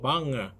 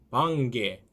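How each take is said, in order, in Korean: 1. 비음 ng는 g 없이 그대로 이어집니다. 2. ng 비음 뒤에 단단한 g 소리가 옵니다. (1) "방에 이렇게 하시면 되겠습니다" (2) "방개 하시면 안 됩니다"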